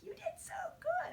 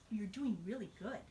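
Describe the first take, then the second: First: It is said loudly with lots of energy. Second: It is said softly with little energy.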